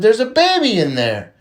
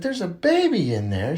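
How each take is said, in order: First: Put-on BABY raised high and loud, then falling; a louder, higher statement swooping down after "baby"; announcing statement. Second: Slower, softer question rising at the end; "There's a baby in there" turned into a wondering question; questioning repeat. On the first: Pregnant lady answering little Johnny, lifted emphatic statement. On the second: Acted. Little Johnny checking what the lady said, slow rising question.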